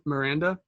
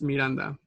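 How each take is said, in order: First: The name is said with an English accent. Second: The name is said with a Spanish accent. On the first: "In English, it's" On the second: "and in Spanish, it's"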